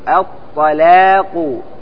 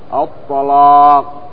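First: The lam and alif are thin and light. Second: The lam and alif are heavy and full. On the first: "يعني أن الألف هنا مرققة تبعا لترقيق اللام" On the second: "فإذا غلظت اللام فإن الألف تتبعها ... في تفخيم"

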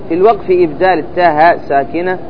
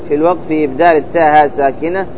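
The two takes are said the same way.

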